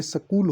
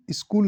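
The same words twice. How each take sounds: First: स्कूल said as "sa-kool"; careful "s'kool" for स्कूल; correct pronunciation. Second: स्कूल said as "iskool"; everyday mistaken "is-kool" for स्कूल; colloquial mispronunciation. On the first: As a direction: start स्कूल on s, with no leading i. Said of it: "ये स्कूल होता है". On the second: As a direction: put an "i" before स्कूल. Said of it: "स्कूल नहीं होता". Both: Shown as a demonstration.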